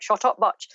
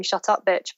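First: Mock Northern Irish, bitch turned to "butch"; Northern Irish accent. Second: Said in the usual way. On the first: Author quoting a novel's kidnapper, imitated Northern Irish accent. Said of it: "in a Northern Irish accent". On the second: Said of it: "it'll be in a Northern Irish accent".

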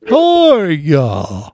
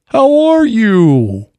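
First: Very slow, stretched turtle greeting. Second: Turtle voice. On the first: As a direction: drag the words out like a turtle. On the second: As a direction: pitch it up and drag it like a turtle. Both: Retold or imitated. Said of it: "I like your turtle voice".

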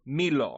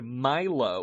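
First: Milo said as MEE-loh; French-style "Milo", starting like "me"; French pronunciation of Milo. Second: Milo said as MY-loh; English-style "Milo", rhyming with silo; English pronunciation of Milo. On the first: Shown as a demonstration. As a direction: say "Milo" with an "ee" in the first syllable. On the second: Real, not acted. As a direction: say "Milo" with a long "eye" in the first syllable.

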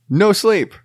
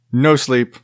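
First: "No sleep" jumps much higher, exclaimed; mock dramatic. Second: Said in the usual way. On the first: Shown as a demonstration. Recapping his bad week, "No sleep" pitched high. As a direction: throw "No sleep" up high like a lament.

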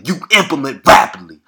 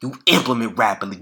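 First: Louder, driving it home; emphatic, raised voice urging action; loud emphatic repeat. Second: Said in the usual way. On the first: Real, not acted. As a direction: hammer the line home to listeners.

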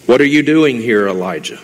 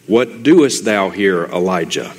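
First: Louder, pressing on doing; preacher booming God's question to the hiding prophet; emphatic restated question. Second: Slow and deliberate, almost hushed; slow, measured question. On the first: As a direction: push the question out, leaning on doing. Same question restated in plain English. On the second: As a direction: ask it slowly, letting each word land. God's question read from scripture. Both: Acted.

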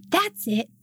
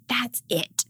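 First: Higher, indignant yelled outburst; toddler yell. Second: Imitating an upset toddler in a breathy whisper; whispered huff. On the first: Retold or imitated. Toddler yelling at the Target cashier, imitated indignant yell. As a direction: blurt it like a furious three-year-old. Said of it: "And he yells". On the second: Toddler mocking parents, imitated in a sulky whisper. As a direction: hiss it like a sulking three-year-old. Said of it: "his new thing, if he's upset, is like".

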